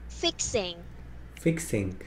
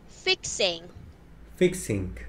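The two takes are said the same way.

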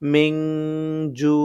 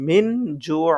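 First: The n is held with a nasal hum. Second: The n is short with no nasal hum. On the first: The speaker calls it right. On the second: The speaker calls it wrong. "কেউ যদি পড়ে মিন জু তাহলে তার উচ্চারণ ভুল"

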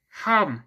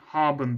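First: It is said with German stress and intonation. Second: It is said flatly, like a Turkish word. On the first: "Mesela şurada gördüğünüz kelime haben" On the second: "Bu kelime Türkçe olsaydı buna muhtemelen haben diyecektik"

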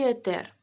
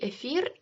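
First: The middle consonant is a t sound. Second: The middle consonant is an f sound. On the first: "і етер" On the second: "однаково правильно казати і ефір"

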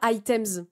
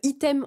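First: The word is pronounced the English way. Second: The word is pronounced the French way. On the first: The speaker calls it wrong. "on dit pas items ... moi j'ai appris items comme en anglais" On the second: The speaker calls it right. "on dit euh, item"

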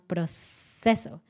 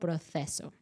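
First: The c is pronounced like an s. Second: The c is pronounced like th. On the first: This is how it is said in Mexico. "en México diríamos proceso" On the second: This is how she said it. "pero ella dijo proceso"

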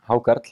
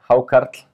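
First: The word is said at normal, quieter volume. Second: The word is said more loudly.

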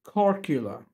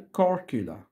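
First: The middle consonant is a 'k' sound. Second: The same.

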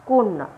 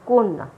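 The two takes are said the same way.

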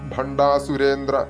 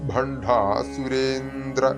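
First: The vowel before 'surendra' is short and weak. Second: The vowel before 'surendra' is drawn out long. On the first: The name refers to a god. The speaker calls it wrong. "അങ്ങനെ ചൊല്ലിക്കഴിഞ്ഞാൽ അർത്ഥം മാറിപ്പോകും" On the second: The name refers to a demon. The speaker calls it right. "അസുരേന്ന് നീട്ടിക്കഴിഞ്ഞാൽ"

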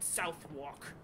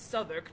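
First: The name is said a non-British way. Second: The name is said the British way. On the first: The speaker calls it wrong. "not Southwark" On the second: The speaker calls it right. "I'm pronouncing them properly now, according to British etiquette"

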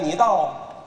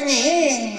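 First: The speaker stutters repeatedly on the second word. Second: The speaker stutters repeatedly on the first word. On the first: "中结巴在道字上的转" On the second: "前结巴在你字儿这儿，他找不着"

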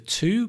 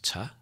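First: The word has a full 'oo' vowel. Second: The word has a reduced 'uh' vowel.

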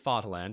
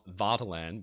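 First: The word is pronounced the German way. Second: The word is pronounced an anglicized way. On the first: The speaker calls it right. "I say Vaterland" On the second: The speaker calls it wrong. "and not Vaterland because ... I mispronounced the word Vaterland"

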